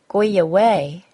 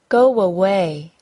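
First: A Y sound links the two words. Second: A W sound links the two words. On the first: The speaker calls it wrong. "said incorrectly with a Y sound" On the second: The speaker calls it right. "the W sound between the words? Listen again"

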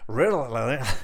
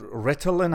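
First: It is said in an attempted American accent. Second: It is said in the speaker's usual accent.

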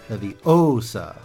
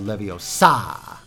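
First: The stress falls on the O syllable. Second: The stress falls on the sa syllable.

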